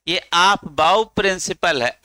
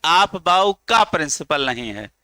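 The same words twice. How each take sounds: First: "आप बाउ principal" said slowly, running straight from बाउ into principal; correct name without का. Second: का punched out between बाउ and principal; single out the wrongly added का; stress on का. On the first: Teacher giving students the correct principle name, deliberate and slow. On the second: Teacher correcting students' wrong name, का stressed. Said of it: "ये का लगाने से ऐसा लगता है". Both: Shown as a demonstration.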